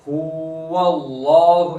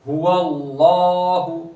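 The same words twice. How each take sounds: First: The first vowel 'hu' is drawn out long. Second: The first vowel 'hu' is kept short. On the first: The speaker calls it wrong. "ऐसे नहीं पढ़ेंगे" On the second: The speaker calls it right. "बल्कि"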